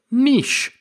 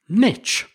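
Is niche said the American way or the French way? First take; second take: French; American. First: The word has the original French pronunciation. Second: The word has the American pronunciation. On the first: "that's the original French pronunciation of the word" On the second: "if you're joining us from over in the States ... you will say niche"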